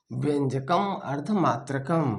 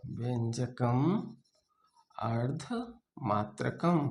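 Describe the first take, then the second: First: Said in the usual way. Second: Slow and soft, chunk by chunk; slow dictation. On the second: Shown as a demonstration. Teacher dictating the verse slowly for notes. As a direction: drag it out so they can note it. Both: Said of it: "repeats the verse for dictation".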